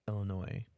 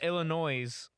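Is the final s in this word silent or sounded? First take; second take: silent; sounded. First: The final s is silent at the end. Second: The final s is pronounced at the end. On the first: The speaker calls it right. "disregard the I S" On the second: The speaker calls it wrong. "Not Illinois"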